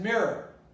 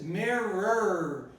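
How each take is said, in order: First: The word is said shortened, syllables run together. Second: The word is said in full, all syllables clear. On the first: "He's going to pronounce it mirror. So the word is going to be shortened" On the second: "nobody is going to pronounce this mirror"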